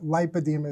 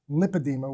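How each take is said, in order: First: It sounds clearly different from lymphedema. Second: It sounds very close to lymphedema.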